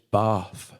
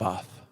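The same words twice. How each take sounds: First: It is said with a southern English vowel. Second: It is said with a northern English vowel. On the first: This is how the locals pronounce the name. The speaker calls it right. "that's how it's pronounced" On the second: This is how someone from the north pronounces the name. The speaker calls it wrong. "I'm from just outside York"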